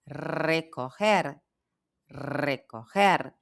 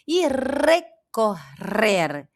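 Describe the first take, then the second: First: Recorrer slowed, middle Rs from the throat; slow guttural recorrer; throaty R. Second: Recorrer very slow, double R clearly trilled. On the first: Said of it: "o G com o som dos dois R's na garganta". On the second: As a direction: roll the R in recorrer slowly. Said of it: "Vê que aqui vibra". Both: Shown as a demonstration.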